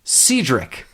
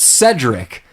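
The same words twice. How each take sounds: First: "Cedric" said as SEE-drick; long ee in the first syllable of "Cedric"; mispronounced name. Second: "Cedric" said as SED-rick; short e in the first syllable of "Cedric"; correct pronunciation. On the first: Retold or imitated. Concierge addressing Rob Schneider, "Cedric" pronounced SEE-drick. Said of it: "he calls Rob Schneider". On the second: Shown as a demonstration. Correcting the bellhop's name, "Cedric" pronounced SED-rick. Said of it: "but it's, it's Cedric".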